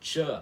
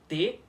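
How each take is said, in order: First: A hissing ch-like sound after the t. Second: A plain t sound with no hiss. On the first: "aquele som de T chiado" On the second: "o som conhecido como T puro"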